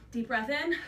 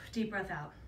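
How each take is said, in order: First: Said in the usual way. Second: Soft exhale cue. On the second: Shown as a demonstration. Trainer guiding the class's exhale, lower and softer. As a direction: lower and softer, letting the breath go.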